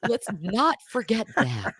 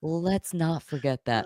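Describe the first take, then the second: First: Amused, higher-pitched reminder; laughing. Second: Slow, softer reminder; measured, hushed restatement; slow deliberate repeat. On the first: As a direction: say it through laughter. Reacting to the joke through laughter. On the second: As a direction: draw it out quietly for effect. Repeats the line after laughing. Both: Real, not acted.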